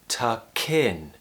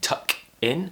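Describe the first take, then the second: First: The two words are joined together. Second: The two words are said separately. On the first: "I'm saying tuck in. The words are joining together" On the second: "I'm not saying tuck in"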